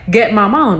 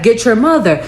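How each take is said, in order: First: "Get my mom" as the Creole phrase; mother's Creole phrase. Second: "Get your mother" as plain English words; misheard English version. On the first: Showing what mom's phrase sounds like, Creole phrase. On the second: Showing how the kids misheard mom, English sound-alike. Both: Shown as a demonstration. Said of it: "that's what it sounds like".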